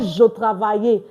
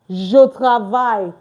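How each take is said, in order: First: The final e of travaille is sounded. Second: The final e of travaille is silent. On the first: The speaker calls it wrong. "Not je travaille" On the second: The speaker calls it right. "The same thing as je travaille"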